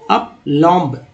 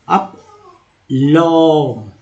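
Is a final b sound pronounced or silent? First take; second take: pronounced; silent. First: The final b sound is pronounced. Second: The final b sound is silent. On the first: The speaker calls it wrong. "ऐसे पढ़ेंगे तो गलती हो जाएगा" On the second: The speaker calls it right. "बी को silent करना है"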